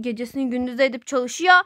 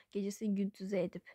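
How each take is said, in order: First: Said in the usual way. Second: Whispered echo of gecesini gündüze edip. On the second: Acted. Mother muttering her own words again, whispered. Repeats it under breath.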